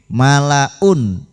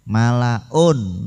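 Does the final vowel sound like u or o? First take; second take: u; o. First: The final vowel sounds like a short u. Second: The final vowel sounds like o. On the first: The speaker calls it right. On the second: The speaker calls it wrong. "niku o namanya"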